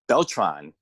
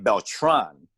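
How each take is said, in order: First: The stress falls on the first syllable. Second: The stress falls on the last syllable. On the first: This is how other people commonly say the name. The speaker calls it wrong. "he got so used to pe- people saying Beltran" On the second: This is how the name is meant to sound. The speaker calls it right. "the accent is it's it's supposed to be Beltran"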